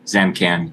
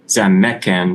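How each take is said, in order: First: M runs straight into K with no vowel. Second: A short vowel is heard between M and K. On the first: The speaker calls it wrong. "not Zamkan" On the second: The speaker calls it right. "the schwa between the M and the K is not written, but it you have to know to say it"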